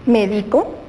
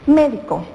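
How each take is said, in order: First: The stress is on the second syllable. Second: The stress is on the first syllable. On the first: "hizo grave la palabra" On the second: "la palabra antes grave por esdrújula cambió"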